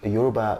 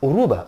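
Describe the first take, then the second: First: The word begins with a 'y' sound. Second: The word begins with a vowel sound.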